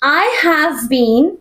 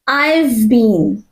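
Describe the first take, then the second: First: The word 'have' is said in full. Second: The word 'have' is shortened onto 'I'.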